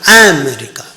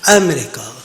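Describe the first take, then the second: First: The stress is not on the second syllable. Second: The stress is on the second syllable. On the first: The speaker calls it wrong. "it is not America" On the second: The speaker calls it right. "The syllable is on the second one"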